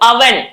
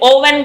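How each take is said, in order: First: The first vowel sounds like 'uh'. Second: The first vowel sounds like 'oh'. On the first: The speaker calls it right. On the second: The speaker calls it wrong. "ఓవెన్ కాదు"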